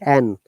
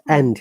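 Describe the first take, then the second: First: The final d sound is dropped. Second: The final d sound is fully pronounced. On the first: The speaker calls it right. "if the and is in between two words, we always pronounce like an" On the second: The speaker calls it wrong. "not and"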